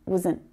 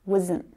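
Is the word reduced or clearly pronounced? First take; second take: reduced; reduced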